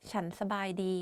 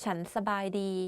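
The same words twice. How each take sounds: The two takes are said the same way.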